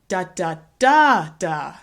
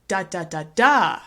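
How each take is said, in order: First: The stress is on the third syllable. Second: The stress is on the fourth syllable. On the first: "What happens if we move the stress to the third syllable?" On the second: "if we put the stress at the end"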